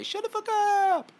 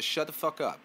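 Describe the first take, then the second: First: High, stretched-out yelling. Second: Said in the usual way. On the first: Shown as a demonstration. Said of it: "Give them the Juicy J". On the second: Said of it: "just give them the".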